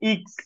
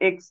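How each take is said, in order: First: The vowel sounds like 'ih'. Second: The vowel sounds like 'eh'. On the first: The speaker calls it right. "এটা ইক্স" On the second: The speaker calls it wrong. "এক্স না"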